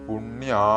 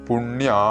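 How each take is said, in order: The two takes are said the same way.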